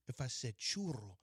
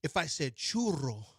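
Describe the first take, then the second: First: Said in the usual way. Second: Churro said slowly with a rolled R. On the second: Shown as a demonstration. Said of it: "now I'm rolling my R".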